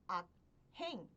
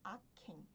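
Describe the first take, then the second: First: A plain k is followed by a separate h. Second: The k and h merge into one aspirated k. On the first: The speaker calls it wrong. "Ao invés de pronunciar como" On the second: The speaker calls it right. "teve som de 키읔"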